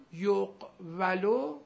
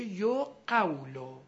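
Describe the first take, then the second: First: یقولو slowly as yoq-va-lo; before vowel shift. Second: یقولو slowly as yo-QAW-lo; after vowel shift. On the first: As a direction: break یقولو after a closed q, yoq, va, lo. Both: Shown as a demonstration.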